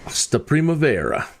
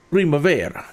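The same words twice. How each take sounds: First: Said in the usual way. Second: Hammed-up Italian accent, rolling the r in Primavera. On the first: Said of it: "You gotta say it". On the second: Shown as a demonstration. Pilot hyping his pasta dinner to viewers, in a hammed-up Italian accent. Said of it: "with the best Italian accent you can muster".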